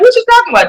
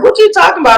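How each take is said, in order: First: The voice is pitched higher and livelier. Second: The voice stays low, flat and mellow. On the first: Listeners understand that everything is fine. "my voice goes up" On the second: Listeners think something is wrong. "because I'm very mellow"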